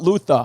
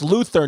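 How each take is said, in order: First: The R at the end is dropped. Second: The R at the end is pronounced. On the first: The speaker calls it wrong. "not Luther" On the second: The speaker calls it right. "it's Luther"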